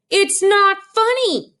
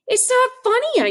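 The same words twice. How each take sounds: First: High, slow, louder hurt whine; boy repeating his protest to mother, slow and whiny; upset child. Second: High, slow, hurt protest; boy protesting to his laughing mother, high and hurt; upset child. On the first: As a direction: drag it out, wounded. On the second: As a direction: whine it through tears. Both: Retold or imitated.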